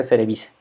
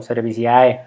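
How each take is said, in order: First: Cerevice ending in a simple "se"; simplified Latin pronunciation. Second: Cerevisiae ending in a fully voiced "i-a-e"; spelled-out pronunciation. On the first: Teacher giving the better-sounding form, Cerevice with a silent A. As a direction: say Cerevice as "se-re-BI-se", without the A. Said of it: "se oye mejor simplemente". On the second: Teacher showing the ugly-sounding form, Cerevisiae said "ser-bi-si-A-E". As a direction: pronounce every vowel at the end of Cerevisiae. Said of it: "sí se ve medio feo". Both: Shown as a demonstration.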